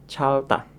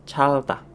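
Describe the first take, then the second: No difference in how they are said.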